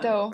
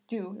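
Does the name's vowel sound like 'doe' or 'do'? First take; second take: doe; do. First: The vowel sounds like the one in 'doe'. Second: The vowel sounds like the one in 'do'. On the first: The speaker calls it right. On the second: The speaker calls it wrong.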